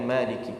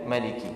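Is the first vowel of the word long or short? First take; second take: long; short. First: The first vowel is held long. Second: The first vowel is kept short. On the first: The one who owns the Day of Judgement. "secara isbat dibaca dengan maliki" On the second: The king of the Day of Judgement. "jumhur ulama ... akan membaca dengan maliki"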